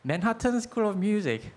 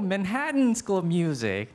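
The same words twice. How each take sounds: First: Manhattan is said with a Korean-style 'tan' ending. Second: Manhattan is said American-style, like 'Manhattn'. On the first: The listener cannot understand it. The speaker calls it wrong. "제 상상에서는 이렇게 말했을 것 같아요" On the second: The listener understands it. The speaker calls it right. "원래 발음은 맨하튼. 근데 이거는 미국식 발음이기는 하죠"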